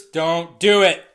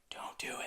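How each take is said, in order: First: Slow, louder "Don't do it"; firm slow plea. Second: "Don't do it" whispered; whispered plea. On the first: Alfred warning Bruce, slow firm plea. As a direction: plead with him, each word slow. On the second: Alfred warning Bruce, whispered plea. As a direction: breathe the warning almost silently. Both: Retold or imitated. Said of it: "he's trying to tell Bruce".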